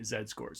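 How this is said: The letter Z is said as zed.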